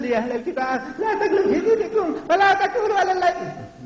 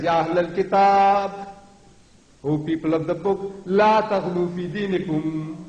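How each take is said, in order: First: High-pitched mock chanting; mocking meek recitation. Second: Slow, drawn-out, resonant proclamation; forceful commanding recitation. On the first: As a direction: parody a feeble reciter in a squeaky high voice. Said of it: "My Allah doesn't talk like that". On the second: Shown as a demonstration. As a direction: proclaim it with weight, stretching the long vowels. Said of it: "That's how Allah talks".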